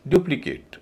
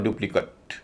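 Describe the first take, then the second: First: डुप्लीकेट as DU-pli-KATE; verb pronunciation. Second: डुप्लीकेट as DU-pli-kut; noun pronunciation. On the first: Teacher giving the verb form, डुप्लीकेट with full "kate". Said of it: "verb है तो डुप्लीकेट". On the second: Teacher giving the noun form, डुप्लीकेट as DU-pli-kut. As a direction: weaken the end of डुप्लीकेट to "kut". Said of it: "noun है तो डुप्लीकेट". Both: Shown as a demonstration.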